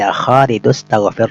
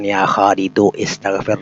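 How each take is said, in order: First: Khalidu runs into staghfir, dropping that vowel. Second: The vowel starting istaghfir is pronounced separately. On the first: The speaker calls it right. "tapi ya Khalidu astaghfir rabbaka" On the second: The speaker calls it wrong. "Bukan ya Khalidu istaghfir rabbak"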